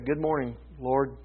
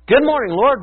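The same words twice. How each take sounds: First: It is said wearily and reluctantly. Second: It is said cheerfully and excitedly.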